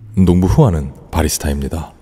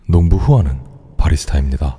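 First: The voice has less low-end depth. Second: The voice has a deeper, fuller low end. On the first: "이백십사" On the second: "이 저음 땡겨오는 그 영역이 달라"

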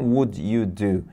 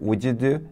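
First: Each word is said separately and carefully. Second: The words run together into one linked chunk. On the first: The speaker calls it wrong. "Não" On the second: The speaker calls it right. "atropelando uma palavra com a outra, juntando tudo"

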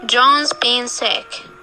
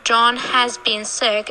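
First: The word 'has' is reduced to a z sound on 'John'. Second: The word 'has' is said in full with its h. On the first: It is the ordinary everyday way to say it. The speaker calls it right. "For example" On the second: It focuses on who has been sick. The speaker calls it wrong. "We don't say John has been sick unless we want to focus on who's been sick"

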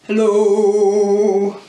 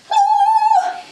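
First: It is said in a very low voice. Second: It is said in a very high voice.

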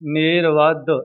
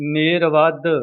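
First: The final d is held and doubled. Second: The same.

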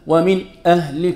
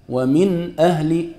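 First: There is a short break after the first word. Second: The words run together without any break. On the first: The speaker calls it wrong. "نقول لك لا، ما في شيء اسمه من أهل" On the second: The speaker calls it right. "الصوت يتصل، ما في شيء اسمه سكتة"

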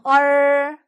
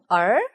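First: The pitch stays high and level. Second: The pitch rises like a question. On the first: "일성" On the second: "이성"

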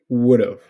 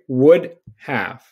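First: The two words are squished into one chunk. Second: Both words are said fully and separately. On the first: "you're going to say would have" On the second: "whenever you see would have"

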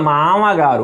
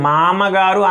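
First: The second syllable is a nasalized va sound. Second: The second syllable is a plain ma sound. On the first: The speaker calls it right. "వా అనేది ముక్కుతో మామగారు అనాలి" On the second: The speaker calls it wrong. "మామగారు అనకూడదు"

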